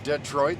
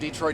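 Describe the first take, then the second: First: Detroit is said the way an outsider would. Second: Detroit is said the way a local would. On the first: This is how the speaker said it on arrival. "When I came to Detroit, that's how I said it" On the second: This is how the speaker says it now. "but now I say Detroit"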